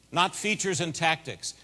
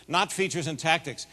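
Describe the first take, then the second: No difference in how they are said.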